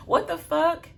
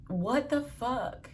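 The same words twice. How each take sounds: First: High, loud disbelieving exclaim; stunned outburst. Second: Slow, drawn-out and softer; slow disbelief. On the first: Telling viewers the husband's ending, in high loud disbelief. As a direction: blurt it out in shock. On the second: Repeating her reaction to viewers, slow and drawn out. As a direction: stretch every word in quiet disbelief. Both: Real, not acted.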